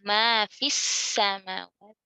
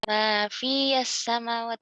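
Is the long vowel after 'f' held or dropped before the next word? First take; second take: dropped; held. First: The vowel is dropped, linking straight into 'samawat'. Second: The long 'fi' vowel is held before the next word. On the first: The speaker calls it right. "maka ya-nya dihapuskan cara lafaznya. Jadi disambungkan langsung ke sukun yang kedua" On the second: The speaker calls it wrong. "Nggak mungkin kayak gitu. Susah"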